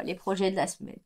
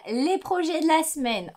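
First: A groan of mock dread. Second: Said in the usual way. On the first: Real, not acted. Knitter dreading her week of projects, mock groan. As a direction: sigh it like a chore you dread. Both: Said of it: "Oh là là".

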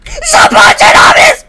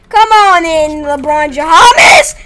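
First: High slow shriek; shrieking name. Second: Slow drawn-out mock welcome; taunting call. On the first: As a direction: scream the name in mock terror. Repeated shriek. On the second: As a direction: call him in mockingly. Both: Real, not acted.

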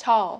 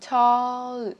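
First: "Tall" said short, tongue touching up for the L; final L sounded. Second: "Tall" stretched long, ending in a held L; slow exaggerated "Tall" for learners; drawn-out final L. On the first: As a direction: close "Tall" on a clear L. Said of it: "Chạm lưỡi lên phần lợi". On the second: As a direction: hold the L of "Tall" with tongue raised. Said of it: "Đưa lưỡi lên ạ". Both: Shown as a demonstration.

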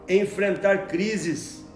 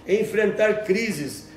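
Both takes have the same delivery.

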